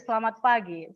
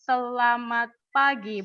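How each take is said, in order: First: The phrase is said quickly at normal speed. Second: The phrase is said slowly and drawn out. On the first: The speaker calls it right. "So that's a normal speed" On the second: The speaker calls it wrong. "we don't say"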